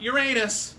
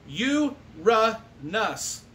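First: It sounds like the phrase 'your anus'. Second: It does not sound like 'your anus'. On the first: The speaker calls it wrong. "It's not Uranus. We don't need any weird junior high school jokes" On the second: The speaker calls it right. "it's pronounced Uranus"

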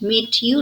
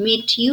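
First: The two words are said separately. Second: The same.

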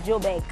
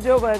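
First: The word is said in a South African accent. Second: The word is said in a non-South African accent.

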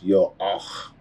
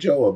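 First: The name begins with a Y sound. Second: The name begins with a J sound. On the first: "but the pronunciation is Yo-ah" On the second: "So if you want to say Joah, you say Joah"

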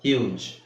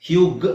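First: The word ends with a soft j sound. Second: The word ends with a hard g sound. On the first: The speaker calls it right. "G E ಬಂದ್ರೆ ಅದನ್ನ ಜ ಅಂತ pronounce ಮಾಡ್ಬೇಕು" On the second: The speaker calls it wrong. "ಹ್ಯೂಗ್ ಅಂತ ಹೇಳಕ್ಕಾಗಲ್ಲ"

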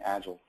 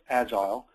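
First: It is pronounced the American way. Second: It is pronounced the European way. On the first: "saying it in the American way" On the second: "those of you who live in Europe who expect to hear the word Agile pronounced Agile"

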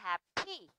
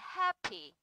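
First: The stress is on the second syllable. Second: The stress is on the first syllable. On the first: The speaker calls it wrong. "chứ không đọc là happy" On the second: The speaker calls it right. "trọng âm sẽ rơi vào âm hap chứ không rơi vào âm thi"

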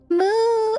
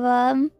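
First: It is said with lots of energy. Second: It is said flatly, with little energy. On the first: The speaker calls it right. "Gotta put some spirit in" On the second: The speaker calls it wrong. "that has no soul in it"

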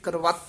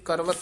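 First: The word is pronounced tightly, with firm force. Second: The word is pronounced loosely, without firm force. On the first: The speaker calls it right. "ਕਰਵਤ ਉਚਾਰਨ ਕਰਨਾ ਕਸ ਕੇ" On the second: The speaker calls it wrong. "ਕਰਵਤ ਨਹੀਂ ਕਹਿਣਾ"

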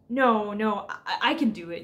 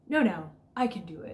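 First: It is said earnestly and nervously. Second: It is said with bored nonchalance.

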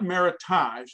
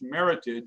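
First: The word is given a French-style pronunciation. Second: The word is pronounced to rhyme with heritage. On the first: The speaker calls it wrong. "it's not meritage, it's not a French word" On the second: The speaker calls it right. "it's meritage, it's an American word"

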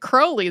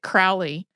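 First: The first syllable sounds like the word 'crow'. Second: The first syllable does not sound like 'crow'. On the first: This is how the man himself said his name. The speaker calls it right. "He said it Crowley, though. The brewery that his family owned even had crows on the labels" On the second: This is the usual American way of saying the name. The speaker calls it wrong. "I think I've always said it Crowley"

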